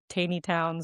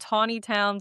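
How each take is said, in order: First: The first syllable sounds like 'tay'. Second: The first syllable sounds like 'taw'. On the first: "some people say Taney Town" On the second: "And Tawny Town"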